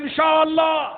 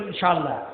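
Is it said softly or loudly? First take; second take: loudly; softly. First: It is said louder and stronger. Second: It is said softly and quietly.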